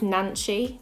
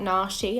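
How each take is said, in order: First: The name has an n sound before the ch. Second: The name has no n sound before the sh. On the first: The speaker calls it right. "I think I found it was Nanchi" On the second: The speaker calls it wrong. "I've been saying it wrong the whole time"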